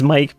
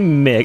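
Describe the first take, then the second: First: The vowel is long, rhyming with 'like'. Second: The vowel is short, rhyming with 'sick'. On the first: The speaker calls it right. "Everyone says Mike" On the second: The speaker calls it wrong. "I say Mick"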